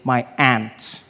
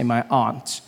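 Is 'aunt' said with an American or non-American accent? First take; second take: American; non-American. First: Aunt is said in an American accent, like 'ant'. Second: Aunt is said in the speaker's non-American accent.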